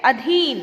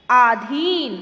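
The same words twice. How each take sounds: First: "अधीन" with a short a at the start; correct pronunciation. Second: "आधीन" with a long aa at the start; wrong spelling said aloud. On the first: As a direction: keep the first vowel of "अधीन" short. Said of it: "शुद्ध शब्द है". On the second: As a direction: stretch the first vowel of "आधीन" into a long aa. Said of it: "ये अशुद्ध शब्द है". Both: Shown as a demonstration.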